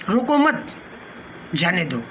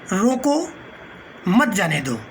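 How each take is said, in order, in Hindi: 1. विराम 'mat' के ठीक बाद आता है। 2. विराम 'roko' के ठीक बाद आता है। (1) "दूसरे का अर्थ ये हो रहा है कि उसे मत रोकिए, उसको जाने दीजिए।" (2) "ये कहता है रोक, उसको रोकिए, मत जाने दीजिए।"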